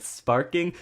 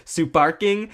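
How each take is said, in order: First: Said in the usual way. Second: "Suparking" in a Japanese accent, extra u after the s. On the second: Shown as a demonstration. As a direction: say "Suparking" the Japanese way, su-par-king. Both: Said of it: "if you say Super King in a Japanese accent".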